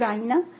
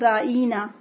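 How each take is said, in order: First: The word is said with a plain pronunciation. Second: The word is said with a twisted pronunciation. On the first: It asks for care and consideration. The speaker calls it right. "صحابہ کرام کہا کرتے تھے" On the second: It comes to mean our shepherd. The speaker calls it wrong. "وہ اپنی زبان کو توڑ کر یا مروڑ کر اس طرح سے کہتے"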